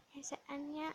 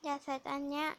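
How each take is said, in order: First: Almost under the breath; much softer repeat. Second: Said in the usual way. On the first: Shown as a demonstration. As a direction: drop it to a hush. (พูดซ้ำเบาๆ เกือบกระซิบ) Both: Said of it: "repeated softer".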